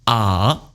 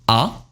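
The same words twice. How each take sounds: First: The pitch dips low and then turns up. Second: The pitch rises from middle to high. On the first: "Third tone turning" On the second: "Second tone rising"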